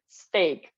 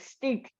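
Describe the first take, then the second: First: The vowel sounds like the 'ay' in day. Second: The vowel sounds like the 'ee' in meat. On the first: The speaker calls it right. "steak, right?" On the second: The speaker calls it wrong. "I also uh, pronounce it as stick"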